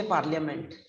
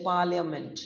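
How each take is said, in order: First: "parliament" said the wrong way, with the R sounded; mispronounced parliament. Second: "parliament" with a long PAA and a silent R; correct parliament. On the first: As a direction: say "parliament" with a spoken R after the first A. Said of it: "We don't say parliament". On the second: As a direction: say "parliament" as PAA-lia-ment, no R sounded. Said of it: "we say parliament". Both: Shown as a demonstration.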